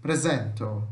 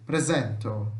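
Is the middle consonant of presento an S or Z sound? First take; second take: Z; Z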